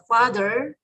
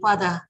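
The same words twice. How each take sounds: First: It is said with an American accent. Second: It is said with a British accent.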